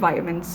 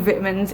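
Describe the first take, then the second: First: The word is said the American way. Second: The word is said the non-American way. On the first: "for all the Americans" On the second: "I say"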